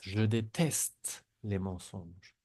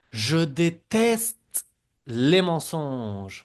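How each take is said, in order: First: Said in the usual way. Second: Déteste stretched out slow and louder; slow emphatic model. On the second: Shown as a demonstration. Teacher models the sentence loudly and slowly for students. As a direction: hammer out Je déteste les mensonges slowly. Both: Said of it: "repiten las frases también".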